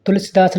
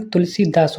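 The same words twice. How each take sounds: First: तुलसीदास with a short i; wrong short vowel. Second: तुलसीदास with a long ee; correct long vowel. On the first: Teacher shows students the mistake, short middle vowel. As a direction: hurry si in तुलसीदास. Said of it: "नहीं". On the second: Teacher corrects students, long middle vowel. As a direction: draw out see in तुलसीदास. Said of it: "होता है". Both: Shown as a demonstration.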